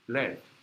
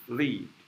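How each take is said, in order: First: The word is pronounced as led. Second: The word is pronounced as leed. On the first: It names the metal element. "case of element, you have to pronounce this as led" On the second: It is the verb meaning to go toward. "This one is lead"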